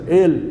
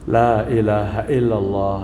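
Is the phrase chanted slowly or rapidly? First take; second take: rapidly; slowly. First: The phrase is rushed into clipped syllables. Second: The phrase is said slowly and clearly. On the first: It is rushed only to reach a count. The speaker calls it wrong. "langsung masuk gigi empat, tancap gas" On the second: It comes sincerely from the heart. The speaker calls it right. "keluar dari lubuk hati"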